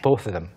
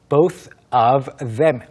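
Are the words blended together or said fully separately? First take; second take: blended; full. First: The words run together into one reduced chunk. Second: Each word is pronounced fully and separately. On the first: "뭔가 도시 이름 같아요" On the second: "Both of them 했다면 더 발음이 듣기 쉬웠겠지만"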